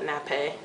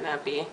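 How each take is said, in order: First: It is said as the culinary term nappe. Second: It is said like the word nappy. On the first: The speaker calls it right. "we call that nappe" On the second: The speaker calls it wrong. "not nappy"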